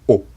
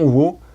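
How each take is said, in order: First: It is a plain o vowel without w. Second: It begins with a w sound before o. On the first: This is how it is said in standard modern Japanese. The speaker calls it right. "la prononciation o" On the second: This sound no longer exists in modern Japanese. The speaker calls it wrong. "le son wo est vraiment euh, plus du tout existant en japonais moderne"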